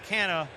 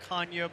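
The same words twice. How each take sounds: First: The name is said with Americanized pronunciation. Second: The name is said with Portuguese pronunciation. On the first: This is the form the family uses in America. "since we've been in America, our kids have been raised this way. His wife came out and said, it's Canha" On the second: This is the name's original heritage form. "He started to explain to us the Portuguese heritage, and it's really Canha"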